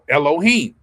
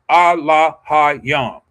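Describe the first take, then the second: First: The word begins with an E sound. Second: The word begins with an A sound. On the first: The speaker calls it wrong. "that's not necessarily how it should be said" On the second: The speaker calls it right. "It's not an E, it's an A"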